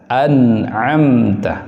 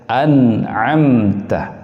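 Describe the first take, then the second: No difference in how they are said.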